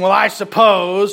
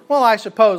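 First: It is said in a slow, thoughtful tone. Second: It is said in a dry, sarcastic tone. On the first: The answer is given after genuine reflection. "like a thoughtful" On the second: The answer is obvious and the question is mocked. "or sarcastic"

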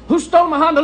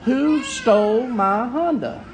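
First: The phrase is said quickly and run together. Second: The phrase is said at a slow, plain pace.

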